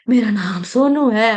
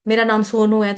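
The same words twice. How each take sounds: First: It is said in a weak, shaky, strained voice. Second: It is said in a firm adult voice. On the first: The speaker has become old. "बोला भी नहीं जा रहा है गले से बुढ़ापे की वजह से" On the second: The speaker has grown into a young man. "फिर जब जवान हुआ"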